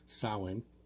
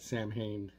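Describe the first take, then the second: First: The name is pronounced differently from its spelling. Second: The name is pronounced as it is spelled. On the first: The speaker calls it right. "It's Samhain" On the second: The speaker calls it wrong. "even though it's spelled that way, is not the pronunciation of it"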